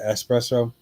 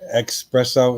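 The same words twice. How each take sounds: First: The word begins with a plain s sound. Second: The word begins with an x sound. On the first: The speaker calls it right. "instead of espresso" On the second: The speaker calls it wrong. "I always put a you know espresso"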